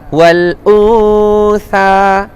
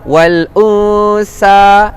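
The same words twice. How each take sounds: First: The consonant is a soft th sound. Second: The consonant is a hissing s sound. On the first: The speaker calls it right. "Kena keluarkan hujung sedikit hujung lidah" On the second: The speaker calls it wrong. "Salah. Itu untuk huruf sin"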